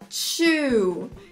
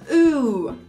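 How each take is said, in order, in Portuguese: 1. A palavra começa com um som de 'ch'. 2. A palavra começa com um som de 't' simples. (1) "que muita gente fala chew, que na verdade chew é mastigar" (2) "Então vamos praticar"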